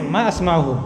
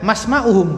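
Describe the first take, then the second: First: A glottal stop separates the two words. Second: The words run together with no glottal stop. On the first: The speaker calls it right. "tapi ma asma'uhum. Karena hamzahnya hamzah qat'i" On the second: The speaker calls it wrong. "jangan masma'uhum, bukan"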